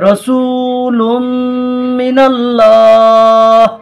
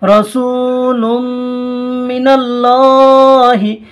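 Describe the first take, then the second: First: The last word ends on a bare consonant. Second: The last word ends on a short vowel. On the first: The reciter stops at this word. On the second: The reciter carries on without stopping.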